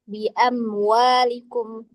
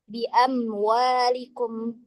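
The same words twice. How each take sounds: No difference in how they are said.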